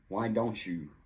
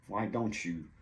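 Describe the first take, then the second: First: The T and Y blend into a ch sound. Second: The same.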